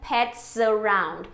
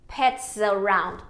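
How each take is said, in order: The two takes are said the same way.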